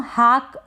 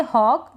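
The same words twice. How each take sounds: First: हाक with an open "aa"; wrong aa vowel. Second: हॉक with a rounded "aw"; correct aw vowel. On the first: Teacher warning learners, mispronounced हाक with "aa". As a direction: mispronounce hawk as हाक, "haak". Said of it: "इसको हम हाक ना पढ़ें". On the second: Teacher giving learners the reading, हॉक with "aw". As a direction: say हॉक as "hawk", not "haak". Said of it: "आप इसको पढ़ेंगे हॉक". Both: Shown as a demonstration.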